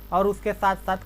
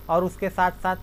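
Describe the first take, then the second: No difference in how they are said.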